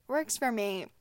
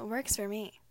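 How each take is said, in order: First: "Works for me" louder with a falling finish; emphatic repeat. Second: Said in the usual way. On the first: Real, not acted. Vlogger insisting to viewers, "Works for me" said louder and firm. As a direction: hit "for" and land it firmly.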